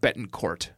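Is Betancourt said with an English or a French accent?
English. It is said with an anglicized, English-style pronunciation. "if you pronounce it Jeannie, you would also pronounce it Betancourt"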